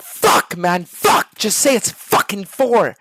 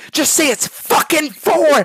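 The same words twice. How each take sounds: First: Exasperated plea. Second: Higher, louder, slow furious demand; louder angry yell. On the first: Streamer begs teammate for answer. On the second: Streamer losing patience with a teammate, in an angry yell. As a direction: snap and yell the answer at him. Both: Acted.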